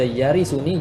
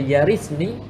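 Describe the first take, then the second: First: A short u vowel comes before the ending ni. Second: No vowel comes before the ending ni. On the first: The heir is described as one who will inherit. "Kalau kita baca yarisuni jadi sifat bagi wali" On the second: Inheriting is the result of granting the request. "kalau kita baca yarisni, maka pada ketika tu dia jadi jazak"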